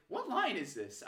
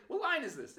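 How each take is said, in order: First: Said in the usual way. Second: Higher, pleading question; exasperated question. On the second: Retold or imitated. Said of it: "I finally have the courage".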